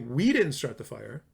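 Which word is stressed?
We. The stress is on "we".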